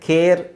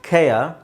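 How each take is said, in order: First: The vowel is one single unglided sound. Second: The vowel glides into a second weak sound. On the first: The speaker calls it wrong. "ಸಾಮಾನ್ಯವಾಗಿ ಎಲ್ಲರೂ ಹೆಂಗೆ ಹೇಳ್ತಾರೆ?" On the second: The speaker calls it right. "ಇದ್ರದ್ದು ಸರಿಯಾದ ಉಚ್ಚಾರಣೆ"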